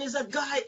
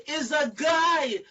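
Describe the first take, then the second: First: Said in the usual way. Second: "guy" drawn out high and loud; emphatic insistence on GUY. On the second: Retold or imitated. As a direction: shout "guy" slowly to hammer it home. Manager insists, repeating for emphasis.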